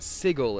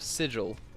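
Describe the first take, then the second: First: It is pronounced by sounding out the spelling. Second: It is pronounced in the usual accepted way. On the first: The speaker calls it wrong. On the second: The speaker calls it right.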